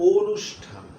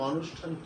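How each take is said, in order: First: The first vowel is a closed 'o' sound. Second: The first vowel is an open 'aw' sound. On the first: The speaker calls it right. "শুদ্ধ উচ্চারণটা এভাবেই করে থাকি" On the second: The speaker calls it wrong. "আমরা কিন্তু অনুষ্ঠান কেউই বলি না"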